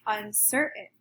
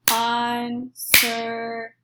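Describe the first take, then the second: First: Said in the usual way. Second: Uncertain split slowly into three clapped beats; clapped syllables. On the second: Shown as a demonstration. Teacher claps Uncertain syllable by syllable for the class. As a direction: clap out Uncertain slowly, beat by beat. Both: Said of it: "clap out how many syllables".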